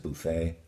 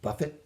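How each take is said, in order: First: The final T is silent, French style. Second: The final T is sounded, English style. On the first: The speaker calls it right. "but it's a buffet" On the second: The speaker calls it wrong. "if it were an English word, you'd pronounce it"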